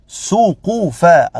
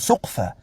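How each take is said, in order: First: The second consonant has a short u vowel. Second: The second consonant has no vowel after it. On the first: The speaker calls it right. "القاف مضمومة" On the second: The speaker calls it wrong. "لا تقل سقفا"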